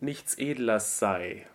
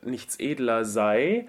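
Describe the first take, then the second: First: The consonant before Edler is unvoiced. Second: The consonant before Edler is voiced. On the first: The speaker calls it right. "So it's unvoiced in that case" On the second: The speaker calls it wrong. "So it's not"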